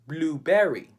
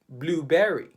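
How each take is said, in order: First: Spoken with a Filipino English accent. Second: Spoken with a Filipino English accent.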